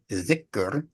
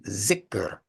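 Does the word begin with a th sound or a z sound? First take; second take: th sound; z sound. First: The word begins with a soft th sound. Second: The word begins with a buzzing z sound. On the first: "We say dhikr" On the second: "the Pakistani tongue will say zikr"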